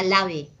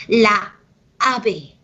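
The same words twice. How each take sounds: First: "la ave" merged into one word, "lave"; lazy run-together. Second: "La ave" broken by a pause between the a's; separated vowels. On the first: Teacher mimicking a lazy speaker, "la ave" run together as "lave". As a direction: slur the two a's of "la ave" into one. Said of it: "el vago dirá la ave". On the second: Teacher showing why it is hard, "La ave" split in two. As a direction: stop after "La", then start "ave" afresh. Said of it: "muy dificultoso para pronunciarse". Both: Shown as a demonstration.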